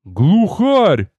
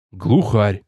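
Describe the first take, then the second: First: Higher-pitched amazed exclamation; stunned cry of discovery; astonished blurt. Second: Lower-pitched matter-of-fact confirmation; low, unexcited acknowledgement; confirming hunter. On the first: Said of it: "Поражённо выпалил тёзка". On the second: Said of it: "подтвердил Литос". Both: A narrator's reading.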